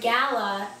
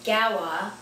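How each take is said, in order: First: The middle consonant is a clear L sound. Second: The middle consonant is a W sound. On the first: "When there is an L in the middle of each word, it turns into a W" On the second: "it turns into a W"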